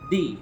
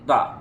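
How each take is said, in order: First: The vowel sounds like 'ee'. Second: The vowel sounds like 'uh'. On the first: It comes before a vowel sound. "ভাওয়াল হইলেই আমরা use করব দি" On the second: It comes before a consonant sound. "Consonant হলে আমরা use করব দা"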